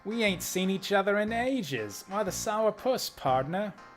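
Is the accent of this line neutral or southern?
neutral. It is read without a southern accent. The speaker calls it wrong.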